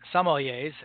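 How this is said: The word is said with an American pronunciation. This is how people in the US say it. "as we call them"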